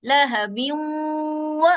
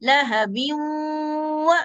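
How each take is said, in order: Both takes have the same delivery.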